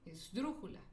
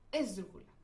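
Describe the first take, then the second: First: The stress is on the third-from-last syllable. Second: The stress is on the fourth-from-last syllable. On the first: "Si se lo pongo en la antepenúltima sílaba" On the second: "Si se lo pongo en la ante antepenúltima"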